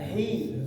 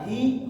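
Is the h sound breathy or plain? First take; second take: breathy; plain. First: The h is said with breath flowing out. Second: The h is said without extra breath. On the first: The speaker calls it right. "ada hamasnya, udah eh, napasnya keluar" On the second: The speaker calls it wrong. "Kalau tidak ada hamasnya"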